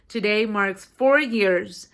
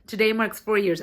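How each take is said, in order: First: "today marks four years" slow and loud; emphatic repeat. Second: Said in the usual way. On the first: Real, not acted. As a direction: drag out and punch "four years".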